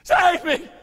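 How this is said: It is screamed in desperation.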